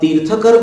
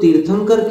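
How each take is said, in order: First: No nasal sound comes before the final syllable. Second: A nasal sound comes before the final syllable. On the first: This form is used more in Sanskrit and Prakrit. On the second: This is the usual form in Hindi.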